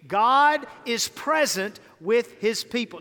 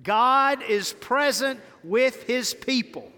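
First: Said in the usual way. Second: Like you're saved. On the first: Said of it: "Say it again". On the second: Shown as a demonstration. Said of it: "Now say it like you're saved".

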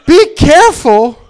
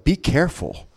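First: High, loud, drawn-out mock repeat; mocking outburst. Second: Hushed warning. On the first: Comic mocking his coworkers' warning, loud and incredulous. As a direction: throw the warning back loudly. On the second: Retold or imitated. Coworkers warning about a trip to Jackson, hushed. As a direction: warn them softly, imitating a worried coworker.

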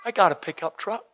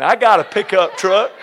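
First: Put-on light Southern accent. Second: Southern accent. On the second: Shown as a demonstration. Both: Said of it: "that sounded a bit southern".

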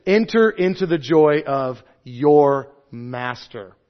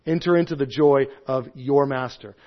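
First: Enter drawn out slowly; stately, slow reading of the master's words; slow, solemn quote. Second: Said in the usual way. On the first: Acted. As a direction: savour each word of Enter into the joy. Quoting master, then repeating.

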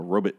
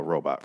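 First: ROBOT said as "ROE-bit", the show's way; show's pronunciation. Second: Said in the usual way. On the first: Retold or imitated. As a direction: weaken the second vowel of ROBOT to "bit". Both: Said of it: "as they say in this show".

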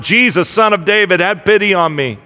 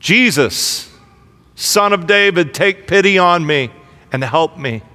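First: Louder plea, pitched up on Jesus; the beggar shouting past those who hush him; calling out louder. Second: Raised voice, crying out for mercy; a blind beggar pleading aloud, voice lifted; calling out loud. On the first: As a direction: cry out even harder over the crowd. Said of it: "still louder". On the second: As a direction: call out to Jesus across the crowd. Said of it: "he called out in a loud voice". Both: A narrator's reading.

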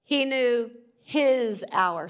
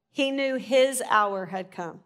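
First: His slow and heavy, every word drawn out; stress on HIS. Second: Said in the usual way. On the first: Shown as a demonstration. Preacher demonstrating verse emphasis, slow stress on his. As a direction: hit the word his, slowly. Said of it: "So if I stress that". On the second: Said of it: "stress different words".

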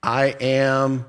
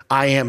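First: I AM held level and left hanging, unfinished. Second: I AM said as a finished statement with a period; full stop. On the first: Preacher quotes Jesus while listeners wait for the object, I AM left hanging. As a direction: stretch I AM out as if an object must follow. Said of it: "waiting for the direct object to fall". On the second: Preacher shows Jesus stopping right there, I AM ended with a full stop. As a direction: close I AM off, nothing to follow. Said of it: "he put a period there". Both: Acted.

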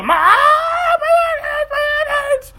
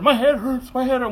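First: Very high, drawn-out wailing scream; imitated child screaming. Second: Put-on slightly raised voice of an unwell kid; child's mild complaint. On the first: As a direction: scream it like a kid in pain. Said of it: "He's screaming his head off". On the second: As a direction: lightly imitate a child saying it hurts. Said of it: "Went from that to".

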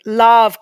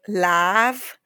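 First: "Lav" with a short open vowel, near "luv"; accepted nickname pronunciation. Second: "Lav" drawn out with a flat short a, as in "lavatory"; mispronounced nickname. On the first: Shown as a demonstration. Guest giving her own nickname, "Lav" said short like "luv". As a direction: say "Lav" briefly, rounder, like "luv" or "lahv". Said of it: "Lav kind of organically came".

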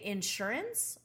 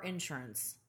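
First: "insurance" stressed on SURE; stress on second syllable. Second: "insurance" stressed on IN; stress on first syllable. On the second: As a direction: say "insurance" as IN-surance. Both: Shown as a demonstration. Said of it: "You put the emphasis at the in?".

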